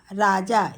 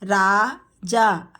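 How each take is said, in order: First: Said in the usual way. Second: Raja drawn out slowly; slow teacher model of Raja. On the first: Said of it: "quick plain repeat". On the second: Shown as a demonstration. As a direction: stretch Raja syllable by syllable. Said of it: "teacher models name slowly".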